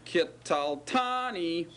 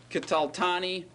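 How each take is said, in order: First: TANI held long after kital; slow down and sustain the ending "tani"; stress on tani. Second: Said in the usual way. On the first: Shown as a demonstration. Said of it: "do you hear the tani ending". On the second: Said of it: "Do you hear the form?".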